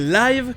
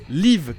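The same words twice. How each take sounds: First: The vowel is long, as in 'dive'. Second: The vowel is short, as in 'give'. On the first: The word is used as an adjective. "et live quand c'est un adjectif" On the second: The word is used as a verb. "qui se prononce live quand c'est un verbe"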